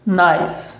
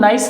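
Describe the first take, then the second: First: The vowel is stretched out a little longer. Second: The vowel is said short, not stretched. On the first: The speaker calls it right. "इस तरीके से बोलेंगे थोड़ा सा खींच करके" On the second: The speaker calls it wrong. "इसे भी नाइस नहीं बोलेंगे"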